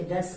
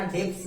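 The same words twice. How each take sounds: First: डेब्ट्स said as "dets", no b; silent b. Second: डेब्ट्स with the b pronounced, as "debts" misread; wrong pronunciation, b sounded. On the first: Teacher corrects the reading, b silent in डेब्ट्स. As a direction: drop the b completely in डेब्ट्स. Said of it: "बी यहाँ पर silent है". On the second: Teacher shows learners the mistake, b sounded in डेब्ट्स. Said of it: "इसमें बी नहीं पढ़ना". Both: Shown as a demonstration.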